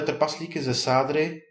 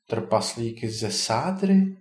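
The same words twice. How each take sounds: First: Said in the usual way. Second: Slow, puzzled echo question; wondering. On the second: A narrator's reading. Ondřej hears of plaster dwarfs, mildly astonished. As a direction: draw it out and lift it at the end in mild surprise. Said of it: "podivil se Ondřej".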